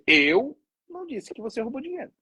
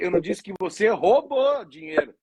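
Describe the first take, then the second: First: The stress is on "Eu". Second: The stress is on "roubou".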